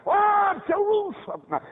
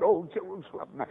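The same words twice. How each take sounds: First: High, loud, drawn-out cry; impassioned lament. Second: Said in the usual way. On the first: Retold or imitated. Jesus crying over Jerusalem as a preacher voices it, impassioned lament. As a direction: wail it out slowly over the city.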